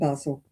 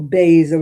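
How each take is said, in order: First: Basil is said in a British way. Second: Basil is said in an American way.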